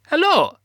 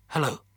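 First: Loud, very high Russian dog voice; terrible Russian accent. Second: Said in the usual way. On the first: A narrator's reading. Laika the space dog greets the astronaut, high terrible Russian accent. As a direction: squeak a greeting in bad Russian. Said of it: "That's a terrible Russian accent". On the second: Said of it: "I offered".

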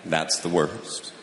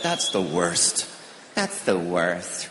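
First: Said in the usual way. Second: Low, slow drawn-out moan of that's the worst; whiny that's the worst. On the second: Retold or imitated. People whining over small things, slow and low. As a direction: drag it out like a sulky complaint. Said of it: "You ever heard people say that?".

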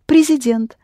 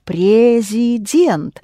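First: Said in the usual way. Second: "президент" drawn out slowly, every vowel full; slow "президент" with clear, unreduced E in each syllable; spelling pronunciation. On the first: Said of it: "You pronounce". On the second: Shown as a demonstration. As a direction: sound out "президент" as it is written. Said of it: "you spell it президент".

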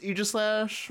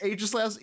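First: AEGISLASH starting with long E as in "eagle"; long-E pronunciation. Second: AEGISLASH starting with long A as in "age"; long-A pronunciation. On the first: Setting out both options for Lotus, long-E "Aegislash". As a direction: say "Aegislash" as EE-jis-lash. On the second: Setting out both options for Lotus, long-A "Aegislash". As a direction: say "Aegislash" as AY-jis-lash. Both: Shown as a demonstration. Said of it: "I heard it was actually pronounced".

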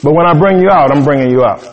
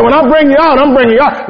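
First: "but when I bring you out, I'm bringing you out" lower, falling on "out"; preacher repeating the promise lower and steadier; calmer restatement. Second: Preacher's high, ringing "I'm bringing you out"; emphatic promise. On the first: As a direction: settle it down, firm and low. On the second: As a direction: proclaim God's promise high and forceful. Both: Shown as a demonstration. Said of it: "Now it's a process".

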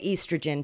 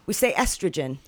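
First: "estrogen" with long ee, EE-struh-jen; British pronunciation. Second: "estrogen" with short e, EH-struh-jen; American pronunciation. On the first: Retold or imitated. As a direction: say "estrogen" as EES-truh-jen. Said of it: "You don't say estrogen". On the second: Shown as a demonstration.

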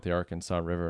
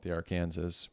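First: Arkansas said as "AR-kan-saw"; standard Arkansas pronunciation. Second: Arkansas said as "ar-KANZ-is"; alternative Arkansas pronunciation. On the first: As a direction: give Arkansas its "saw" ending. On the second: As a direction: rhyme Arkansas with Kansas. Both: Shown as a demonstration. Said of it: "two accepted pronunciations".

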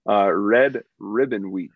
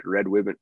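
First: Red Ribbon said slowly, each r clear; slow careful r in Red and Ribbon. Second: Ribbon said as wibbon, w for r; the r in ribbon comes out as a w; says w for r. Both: Real, not acted. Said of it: "can't say my R's".

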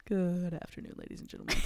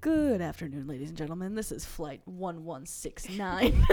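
First: Pilot voice. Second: Pilot announcement voice. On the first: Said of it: "the classic, like, pilot voice". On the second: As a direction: play the captain on the intercom. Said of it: "Do it again". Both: Pretend.

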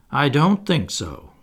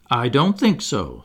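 First: Slow, higher, mildly mournful answer. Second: Said in the usual way. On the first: A narrator's reading. Boy wishing things were otherwise, mildly mournful. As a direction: draw it out with regret. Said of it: "who said mournfully". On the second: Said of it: "said the first twin".

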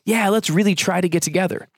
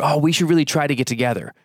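First: Breezy, empty promise with a lift; noncommittal promise. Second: Fast, offhand, stress on really; insincere brush-off. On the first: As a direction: say it like you'll never follow through. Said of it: "the one you're most familiar with". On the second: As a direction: toss it off with no intention of following through. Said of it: "people use try when they really have no intention". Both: Shown as a demonstration.

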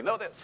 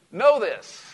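First: Said in the usual way. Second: KNOW hit high and loud; preacher's punch on Know; emphatic command. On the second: Shown as a demonstration. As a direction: land the word Know hard. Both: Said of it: "Look at your neighbor and say".

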